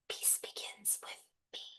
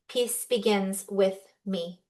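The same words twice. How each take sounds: First: It is spoken in a whisper. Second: It is spoken in a normal voice.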